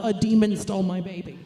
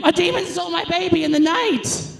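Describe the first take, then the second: First: Deadpan demon complaint. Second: High panicked cry about a demon; frantic demon complaint. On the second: Mother at the hospital, panicked and loud. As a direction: shriek it like a hysterical mother. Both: Retold or imitated. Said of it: "with the complaint of".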